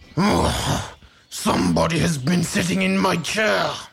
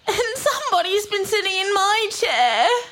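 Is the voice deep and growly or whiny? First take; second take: deep growly; whiny. First: It is said in a big growly voice. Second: It is said in a whining voice.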